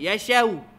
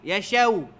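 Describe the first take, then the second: Both takes have the same delivery.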